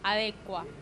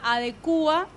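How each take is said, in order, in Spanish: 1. El acento cae en la sílaba de. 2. El acento cae en la sílaba cu. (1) "Adecuar normalmente seguía la conjugación de averiguar" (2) "ahora también se acepta adecua siguiendo la conjugación de actuar"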